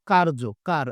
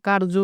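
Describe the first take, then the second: First: কার্য said whole, then its root কার split off clearly; teacher pronouncing কার্য and then কার part by part; pronounced slowly. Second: Said in the usual way. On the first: Shown as a demonstration. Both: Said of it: "উচ্চারণ করি একটু".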